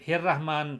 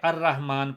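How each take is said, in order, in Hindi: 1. यह जुड़े हुए 'hi' से शुरू होता है, जैसे जुड़ा हुआ हो। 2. यह अलग खड़े पूरे 'a' की आवाज़ से शुरू होता है। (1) "हे की ज़ेर के साथ" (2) "अलिफ को हम हरकत दे के उसको हमजे की सूरत बना देंगे"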